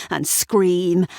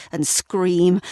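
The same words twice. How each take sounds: The two takes are said the same way.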